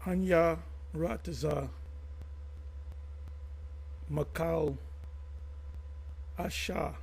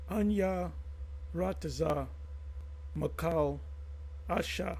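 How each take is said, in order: First: The phrase is spoken slowly. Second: The phrase is spoken faster. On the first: "I'm going to say it slow" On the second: "then I'm going to say it faster"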